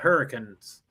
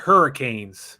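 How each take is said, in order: First: It is said with a British pronunciation. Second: It is said with an American pronunciation.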